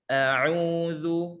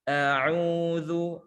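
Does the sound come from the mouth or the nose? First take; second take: mouth; mouth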